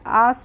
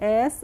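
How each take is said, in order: First: The vowel is a long 'ah' sound. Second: The vowel is a short 'eh' sound. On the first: The speaker calls it wrong. "आस नहीं पढ़ते हैं" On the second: The speaker calls it right. "इसको पढ़ते हैं एस"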